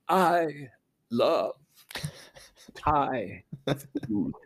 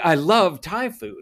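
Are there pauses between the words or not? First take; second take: pauses; no pauses. First: There is a pause between every word. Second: It is said smoothly without pauses.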